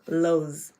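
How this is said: It is said with an American pronunciation. The speaker calls it right. "it's actually pronounced"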